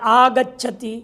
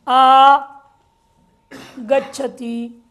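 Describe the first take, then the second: First: The prefix and verb are joined without break. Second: The prefix and verb are said with a break. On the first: The speaker calls it right. "एक साथ ही बोलना पड़ेगा, अलग करके नहीं बोल सकते" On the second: The speaker calls it wrong. "ऐसे नहीं बोल सकते"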